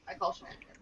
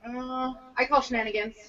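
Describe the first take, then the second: First: "I call shenanigans" whispered with no voice. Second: Said in the usual way. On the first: Shown as a demonstration. Repeating the accusation to friends in a whisper. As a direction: breathe "I call shenanigans" as a hushed echo.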